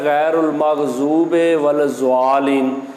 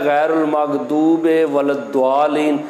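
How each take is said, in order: First: The key consonant is pronounced as a 'z' sound. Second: The key consonant is pronounced as a 'd' sound. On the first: One sect recites it this way. "एक फ़िरका पढ़ता है" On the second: Another sect recites it this way. "एक पढ़ता है"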